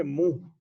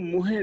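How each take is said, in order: First: ਮੂੰਹ said as a single nasal syllable, muh, with no ending vowel; correct reading. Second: ਮੂੰਹੇ said with an extra e sound at the end, as muhe; wrong reading. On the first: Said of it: "ਸ਼ਬਦ ਹੈ ਮੂੰਹ". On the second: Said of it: "ਇਹਨੂੰ ਮੂੰਹੇ ਨਹੀਂ ਪੜਨਾ". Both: Shown as a demonstration.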